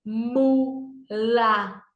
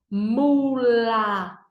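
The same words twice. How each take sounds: First: Mula split into "mu... la"; syllable by syllable. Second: Mula stretched as unbroken "mmmuulllaa"; sounds blended. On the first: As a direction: say Mula with a clear gap between syllables. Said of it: "Duas sílabas". (Mula em sílabas: "mu... la") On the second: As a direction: join the sounds of Mula slowly, no gap. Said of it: "Vamos fazer o sonzinho". (Mula esticado, sem pausa: "mmmuulllaa") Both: Shown as a demonstration.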